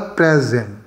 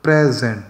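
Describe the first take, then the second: First: The stress is on the first syllable. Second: The stress is on the first syllable.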